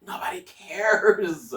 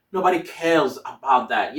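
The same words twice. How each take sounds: First: Whispered. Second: Said in the usual way. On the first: Shown as a demonstration. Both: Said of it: "don't worry about your pronunciation".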